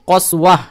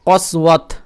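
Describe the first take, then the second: First: The word ends with an h sound. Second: The word ends with a t sound. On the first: The reader stops on this word. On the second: The reading continues without a stop.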